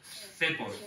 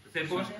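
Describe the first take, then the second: First: Said in the usual way. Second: Cepos with a rising pitch at the end; questioning rise. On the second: Shown as a demonstration. Preacher checking the word with the congregation, rising tune.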